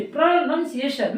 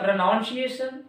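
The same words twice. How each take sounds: First: प्रोनंसिएशन with "nun" in the middle; correct pronunciation. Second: प्रोनाउंसिएशन with "noun" in the middle; mistaken pronunciation. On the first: Shown as a demonstration. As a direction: say प्रोनंसिएशन as "pruh-NUN-si-ay-shun". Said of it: "आप यहाँ पे ध्यान दीजिए". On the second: Retold or imitated. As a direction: say प्रोनाउंसिएशन as "pro-NOUN-si-ay-shun". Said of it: "कुछ भी बोल रहा है".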